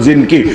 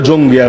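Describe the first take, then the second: First: The name is pronounced like Zinki. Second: The name is pronounced like Jongi. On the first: This is the original form. The speaker calls it right. "আসল উচ্চারণ জিনকি" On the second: This is the common local form. The speaker calls it wrong. "বাংলায় বলে জঙ্গি"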